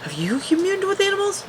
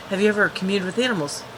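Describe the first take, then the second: First: Much higher, mocking the question. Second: Said in the usual way. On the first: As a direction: squeak it in a teasing falsetto. Retold question, mocking high take.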